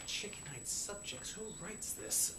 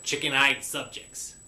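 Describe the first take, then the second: First: Slow, incredulous whisper; hushed grumble at the script; whispered aside. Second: Said in the usual way. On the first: Real, not acted. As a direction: mutter it under your breath in disbelief. Muttered aside about the script.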